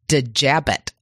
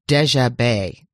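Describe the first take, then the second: First: The name is said the American way. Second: The name is said the French way. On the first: The speaker calls it wrong. "I guess in America, a lot of us would say Lee Dejabet, but that doesn't sound good" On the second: The speaker calls it right. "Very French, very French"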